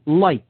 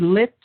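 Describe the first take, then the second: First: The vowel is a long i sound. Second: The vowel is a short i sound. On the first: "if you pronounce it with a long I" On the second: "Now you could say lit"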